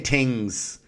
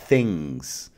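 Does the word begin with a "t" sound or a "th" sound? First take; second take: t; th. First: The word begins with a plain t sound. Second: The word begins with a soft th sound. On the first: "if I say things" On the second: "instead of things"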